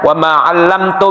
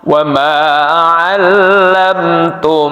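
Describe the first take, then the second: First: The doubled m is rushed and cut short. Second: The doubled m is held with a nasal hum. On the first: The speaker calls it wrong. "Bukan begini membacanya" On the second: The speaker calls it right. "harus ditahan"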